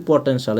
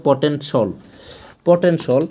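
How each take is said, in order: First: পটেনশাল ending in an open shal; common pronunciation. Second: পটেনশাল ending in a rounded shol; corrected pronunciation. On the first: Teacher quoting what we often say, open -shal in পটেনশাল. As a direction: open a vowel in the last syllable of পটেনশাল. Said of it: "আমরা অনেক সময় বলি পটেনশাল". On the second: Teacher correcting the common habit, rounded -shol in পটেনশাল. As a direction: round the last vowel of পটেনশাল to o. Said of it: "এটা হবে পটেনশাল". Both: Shown as a demonstration.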